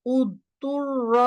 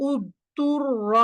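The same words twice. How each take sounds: The two takes are said the same way.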